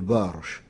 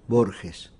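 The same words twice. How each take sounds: First: The name is read out the French phonetic way. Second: The name is said the Argentine Spanish way. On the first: This is how people in Geneva said it. "on lisait cela d'une façon phonétique" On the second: This is how people at home say it. "En général, chez moi, on prononce Borges"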